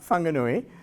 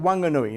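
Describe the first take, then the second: First: It begins with a breathy h-like sound. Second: It begins with a plain w sound. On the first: This is the current official name. "not Whanganui" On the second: This is the older name and the local usage. "There was no H"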